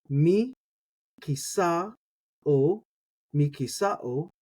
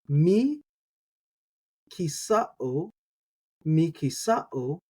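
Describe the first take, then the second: Both takes have the same delivery.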